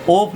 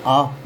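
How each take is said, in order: First: ऑफ with a round O, "ohf"; rejected O reading. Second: आप as "aaf", open aa; open AA reading. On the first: Teacher warns students off this reading, ऑफ with an O. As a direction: round the vowel of ऑफ to O. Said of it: "ऑफ नहीं पढ़ेंगे". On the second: Teacher gives students the taught reading, आप as aaf. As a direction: say आप with aa and a final f. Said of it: "इसको भी आप पढ़ेंगे". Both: Shown as a demonstration.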